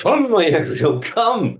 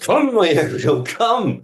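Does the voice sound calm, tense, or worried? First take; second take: worried; worried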